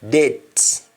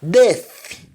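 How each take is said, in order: First: It is said in Jamaican, th becomes d. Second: It is said in standard English, with th.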